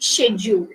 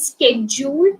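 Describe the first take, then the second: First: It starts with a 'sh' sound. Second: It starts with a 'sk' sound. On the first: "In British English you say schedule" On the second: "schedule എന്നാണ് American English"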